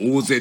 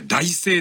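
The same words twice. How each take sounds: First: The word begins with a long 'oo' sound. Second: The word begins with the syllable 'tai'. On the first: "大勢って読むっていう" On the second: "これ大勢って読めばいいものを"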